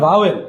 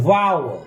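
First: Vowel as "bha-wel", b-like start; vowel in two syllables, "bawel"; wrong pronunciation. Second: Vowel as "va-ul", true v and smooth glide; corrected pronunciation. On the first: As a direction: say vowel the mistaken way, clear "wel" ending. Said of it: "Not vowel". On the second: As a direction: model vowel with the diphthong drawn out. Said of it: "উচ্চারণটা হচ্ছে vowel". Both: Shown as a demonstration.

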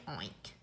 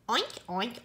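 First: A much lower, much softer last oink; fading pig oink. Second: Light playful oinks; pig oinks. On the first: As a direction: let the oink sink away low and quiet. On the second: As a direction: oink like a pleased piglet. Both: Pretend. Amused pig sound in book.

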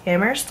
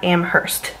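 First: Amherst with a silent H; local pronunciation. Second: Amherst with the H sounded; mistaken pronunciation. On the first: Vlogger teaching viewers her local town's name, silent-H pronunciation. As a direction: say Amherst as AM-erst, no H. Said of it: "It's pronounced Amherst, not Amherst". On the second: Vlogger showing viewers how not to say it, H-sounded mispronunciation. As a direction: say Amherst as am-HURST, H pronounced. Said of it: "not Amherst". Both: Shown as a demonstration.

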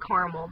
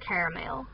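First: "caramel" said in two syllables, "carmel". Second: "caramel" said "care-a-mel"; three-syllable caramel. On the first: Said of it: "I think I say caramel". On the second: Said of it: "it's pronounced caramel". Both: Shown as a demonstration.

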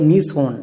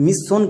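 First: "মিশন" as mi-son, one s; correct single s. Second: "মিশন" as mis-son, s doubled; wrong double s. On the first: Teacher gives the right reading, single-s "মিশন". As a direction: open "mi", then "son" in "মিশন". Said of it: "এর উচ্চারণটা হবে". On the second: Teacher rules out the error, double-s "মিশন". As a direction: close the first syllable of "মিশন" on s. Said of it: "কিন্তু হবে না". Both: Shown as a demonstration.

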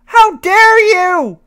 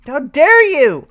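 First: Outraged, higher. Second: Outraged. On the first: Repeated, higher. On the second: Repeated rising outrage. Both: Real, not acted.

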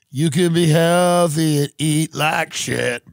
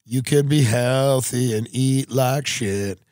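First: Hammed-up ad shout; louder, slower emphatic. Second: Said in the usual way. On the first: Shown as a demonstration. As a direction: punch it out loud and slow. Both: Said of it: "repeated louder take".

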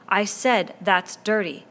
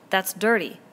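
First: "I said that's dirty" slowed down with the weight on "said"; a boy chief repeating himself slowly to silence the crowd; slow insistent repeat. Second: Said in the usual way. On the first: Acted. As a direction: spell out "said", hammering it home over the laughter. Ralph repeats over the laughter.

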